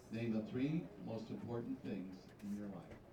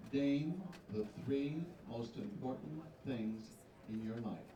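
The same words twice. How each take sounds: First: Said in the usual way. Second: Slow, carefully spaced question; slow and deliberate. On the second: Shown as a demonstration. Host reads the pageant question slowly to the contestant. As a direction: spell the question out slowly so she catches it. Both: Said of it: "I'm gonna say it twice for you".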